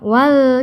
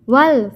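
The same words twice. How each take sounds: First: The vowel in wal is drawn out long. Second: The vowel in wal is short and direct. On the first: The speaker calls it wrong. "panjang wal, tidak boleh" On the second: The speaker calls it right. "Jadi langsung wal fajri"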